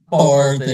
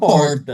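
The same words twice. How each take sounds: First: It has a different regional accent's r. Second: It has the inland São Paulo accent's r.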